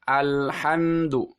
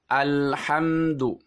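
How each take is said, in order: Both takes have the same delivery.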